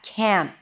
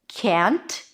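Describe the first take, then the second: First: The final T is barely audible. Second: The final T is clearly released. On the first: "even though the T is barely noticeable" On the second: "pop the T"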